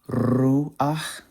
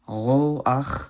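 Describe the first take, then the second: First: The final consonant is a soft breathy h. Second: The final consonant is a harsh guttural ch. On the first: "Ruach in chosen Hebrew" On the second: "roach in modern Hebrew"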